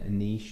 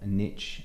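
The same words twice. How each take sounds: First: Niche is said the British way. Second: Niche is said the American way.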